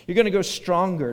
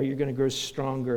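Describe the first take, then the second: First: Louder, stressed on gonna, falling at the end; emphatic point. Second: Said in the usual way. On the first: Shown as a demonstration. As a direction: announce the sermon point firmly, leaning on gonna. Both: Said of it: "Number four there, you're gonna grow stronger".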